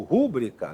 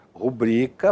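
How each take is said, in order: First: "rúbrica" with stress on the first syllable, RÚ. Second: "rubrica" with stress on the middle syllable, BRI. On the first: Retold or imitated. Teacher quotes common mistake, "rúbrica" stressed on RÚ. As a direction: hit RÚ at the start of "rúbrica". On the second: Shown as a demonstration. Teacher models correct pronunciation, "rubrica" stressed on BRI. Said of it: "possuem a pronúncia correta".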